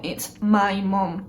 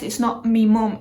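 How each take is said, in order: First: Slow, careful "my" with a full vowel; corrected "my mum". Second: "mum" after a short, reduced "me" in place of "my"; Manchester "me mum". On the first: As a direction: stretch out "my" to correct someone. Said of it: "She even corrects me sometimes". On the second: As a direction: quote the dialect "me", said like the pronoun. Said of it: "the accent from Manchester". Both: Retold or imitated.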